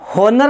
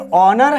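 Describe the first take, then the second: First: The word begins with an h sound. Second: The word begins with a vowel sound. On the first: The speaker calls it wrong. "इसको हम होनर नहीं बोलते दोस्तों" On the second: The speaker calls it right. "ये हो नहीं है, ये ऑनर है"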